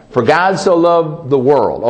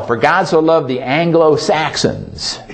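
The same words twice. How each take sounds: First: Said in the usual way. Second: "Anglo-Saxons" stressed as a pointed wrong ending; wrong version of the verse. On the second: Shown as a demonstration. Pastor testing the congregation with a misquote, pointed stress. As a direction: set up the wrong word "Anglo-Saxons" with a knowing lilt.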